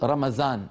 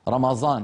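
First: The middle consonant is a light, plain z. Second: The middle consonant is a heavy, emphatic z. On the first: Others soften it even further. "يرققه جدا فيجعله ليس أز بل يجعله زايا خالصة" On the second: Some non-Arabs say it this way. "رمضان هكذا"

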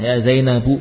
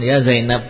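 First: The name ends with an added u vowel. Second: The name ends on a bare consonant. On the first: This is the full grammatical form. "Ya Zainabu kan jarang" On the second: This is the casual conversational form. "memang akan disukun ya Zainab"

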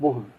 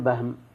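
First: The first vowel is a 'u' sound. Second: The first vowel is an 'a' sound. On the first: The speaker calls it right. "بضم الباء بلا خلاف" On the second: The speaker calls it wrong. "ما تقول بهم"

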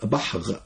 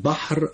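First: The final consonant is a guttural gh. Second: The final consonant is a tapped r. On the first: The speaker calls it wrong. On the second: The speaker calls it right.

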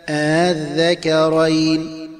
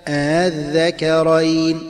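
No difference in how they are said.

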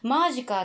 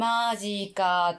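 First: The first syllable carries a strong, sharp accent. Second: The word is stretched out and drawn long. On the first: "マにすごいアクセントがあるのが今ので" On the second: "伸ばすやつ"

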